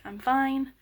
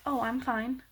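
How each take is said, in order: First: Irritated. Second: Happy tone. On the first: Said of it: "you're kind of irritated". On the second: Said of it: "If you say it in a happy tone". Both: Shown as a demonstration.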